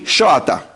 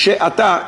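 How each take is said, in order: First: The first vowel is an 'o' sound. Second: The first vowel is an 'e' sound.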